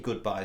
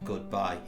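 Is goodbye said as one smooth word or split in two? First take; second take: one word; split. First: It is said as one smooth word. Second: It is split into two separate words. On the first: The speaker calls it right. "for me, goodbye is one word" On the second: The speaker calls it wrong. "not goodbye. If you went goodbye, it sounds like you're buying a car"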